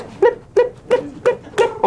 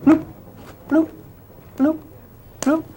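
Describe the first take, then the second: First: Very high, quick chirpy blip-blip-blip. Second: Low bloops. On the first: Teacher showing high frequency to class, squeaky blips. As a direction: squeak it out like rapid high pulses. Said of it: "higher frequency or lower?". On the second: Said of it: "Over here". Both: Shown as a demonstration.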